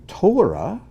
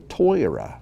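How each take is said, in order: First: It is said with a Sephardic Hebrew pronunciation. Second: It is said with an Ashkenazic Hebrew pronunciation.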